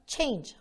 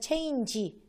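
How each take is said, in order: First: The word is said as one syllable. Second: The word is said with an extra final syllable. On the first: The speaker calls it right. "이게 맞게 했다면 change 하고 syllable이 하나죠" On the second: The speaker calls it wrong. "잘못된 방식으로 하시게 되면 change 그리고 두 번 있죠"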